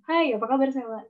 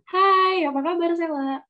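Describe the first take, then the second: First: The voice is pitched in the middle. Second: The voice is pitched high.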